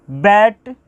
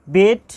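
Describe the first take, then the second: First: बैट with an open "ae" as in English "bat"; misread vowel. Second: बेट with a close "ay" vowel, like "bait"; careful model reading of बेट with "ay"; corrected long e. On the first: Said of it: "यानी कि bell, sorry". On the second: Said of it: "sorry". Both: Shown as a demonstration.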